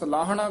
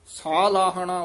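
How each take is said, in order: First: The first vowel is short. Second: The first vowel is long. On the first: The speaker calls it wrong. "ਆਮ ਨਾ ਸਲਾਹਣਾ ਕਹਿ ਜਾਂਦੇ" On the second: The speaker calls it right. "ਸੱਸੇ ਦਾ ਕੰਨਾ ਦੀਰਘ ਲਾ ਕੇ"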